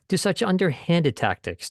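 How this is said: The word underhanded carries the main stress. The underhanded nature of the tactics is highlighted. "If if he wanted to emphasize underhanded"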